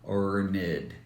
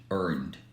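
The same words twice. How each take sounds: First: The ending is said as an extra syllable. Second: The ending is a plain d sound. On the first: The speaker calls it wrong. "we don't pronounce like" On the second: The speaker calls it right.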